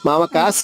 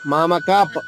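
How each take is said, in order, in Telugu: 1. ఈ పదం s ధ్వనితో ముగుస్తుంది. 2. ఈ పదం p ధ్వనితో ముగుస్తుంది. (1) "మామకాస్ కాదమ్మా" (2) "ఇక్కడ పాలా చెప్పాలి"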